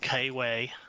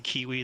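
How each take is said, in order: First: The vowels are shifted, New Zealand style. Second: The vowels sound plain and unshifted. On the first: "they say Kiwi" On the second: "they don't say kiwi"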